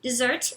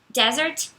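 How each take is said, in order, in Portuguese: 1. Ela é pronunciada da mesma forma que 'dessert'. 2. Ela é pronunciada de forma diferente de 'dessert'. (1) "a mesma pronúncia de dessert" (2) "Desert significa deserto"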